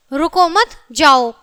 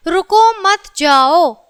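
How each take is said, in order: First: "रुको मत" together, break, then "जाओ"; slow reading, split before जाओ; pause after मत. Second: Slow "रुको", then "मत जाओ"; slow reading with a break after रुको; pause after रुको. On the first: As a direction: keep मत with रुको, set जाओ apart. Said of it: "और यहाँ है". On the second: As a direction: separate रुको from मत, drawing out जाओ. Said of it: "अब वहाँ पर हमने चिन्ह लगाया है". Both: Shown as a demonstration.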